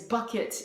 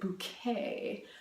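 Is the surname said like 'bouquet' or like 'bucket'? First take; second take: bucket; bouquet. First: The name is said like the word 'bucket'. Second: The name is said like the word 'bouquet'. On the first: This is the plain, ordinary name. "Her last name is Bucket" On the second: This sounds more refined and upper-class. "you better pronounce it Bouquet, because that just sounds so much better"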